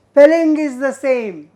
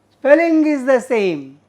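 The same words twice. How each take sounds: The two takes are said the same way.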